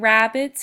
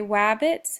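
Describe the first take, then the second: First: The word begins with an R sound. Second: The word begins with a W sound. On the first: "instead of saying rabbits" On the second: "substitutes um, a lot of his R's for W's"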